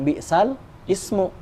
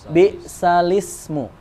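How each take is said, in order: First: The words are separated with a break. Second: The words are joined into one flow. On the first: The speaker calls it wrong. "Jadi bukan bi'sal ismu" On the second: The speaker calls it right. "tapi bi'salismu. Itu namanya naqal"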